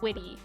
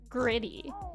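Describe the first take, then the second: First: The R is replaced by a W sound. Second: The word is said with a clear R sound. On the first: "if you pronounce it like you're a kid who can't pronounce um R's" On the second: "it's normally pronounced gritty"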